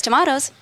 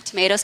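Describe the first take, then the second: First: "tomatoes" with an "ah" middle; British "tomatoes". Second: "Tomatoes" with an "ay" middle; American "Tomatoes". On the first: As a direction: say "tomatoes" as "to-MAH-toes". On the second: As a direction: say "Tomatoes" as "to-MAY-toes". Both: Shown as a demonstration. Joke on two pronunciations.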